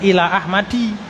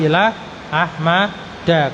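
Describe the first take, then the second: First: The name ends with an 'i' vowel. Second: The name ends with an 'a' vowel. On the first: The speaker calls it wrong. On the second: The speaker calls it right. "pakainya fathah"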